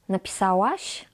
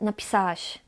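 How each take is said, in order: First: The 'ł' sound is clearly pronounced. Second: The 'ł' sound is dropped. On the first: "Nie napisałaś" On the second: "ale napisałaś"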